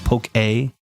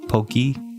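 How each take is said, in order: First: The word ends with an 'ay' vowel sound. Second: The word ends with an 'ee' vowel sound. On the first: The speaker calls it right. "I think there's an accent above the E, right? So it's poke A" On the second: The speaker calls it wrong. "instead of poke pokey"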